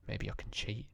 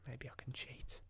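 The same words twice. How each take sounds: First: Said in the usual way. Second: Unvoiced conspiratorial whisper; sly whisper. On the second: Real, not acted. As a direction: whisper it like a secret.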